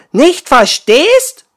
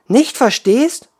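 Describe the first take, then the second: First: Much higher, louder, slower outrage; outraged. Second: High, loud, slow indignant echo. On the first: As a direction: fling it back in fury. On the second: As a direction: throw the words back in disbelief. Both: Acted. Water woman indignant echo.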